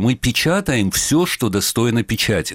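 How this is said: The stress falls on the word все. The paper prints everything that is worth printing. "с упором на все"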